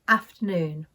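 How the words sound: It has a short northern A vowel. "I pronounce these words with an A sound"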